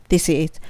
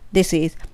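Both takes have the same delivery.

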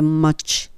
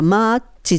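First: It ends in a consonant with rounded lips. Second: It is said Japanese-style with a final vowel. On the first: The speaker calls it right. "唇入れてしまってmuch" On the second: The speaker calls it wrong. "マッチじゃなくて"

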